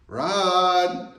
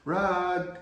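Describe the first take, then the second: First: The name is called a little louder. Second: The name is called at a low level. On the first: It is more urgent but still not obligatory. "now it's a little elevated" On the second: There is no need to come yet. "she's on a low level"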